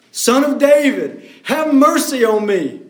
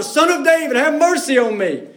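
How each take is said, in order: First: Crying out. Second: Higher, pleading call to be heard over the crowd; louder cry for mercy. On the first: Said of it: "he cried out all the more". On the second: Blind beggar calls louder to Jesus over the crowd, pleading. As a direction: push it louder like a desperate beggar. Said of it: "He just gets louder". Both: Retold or imitated.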